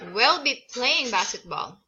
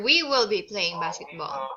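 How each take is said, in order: First: "We will" is contracted to "we'll". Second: "We will" is said as two full words.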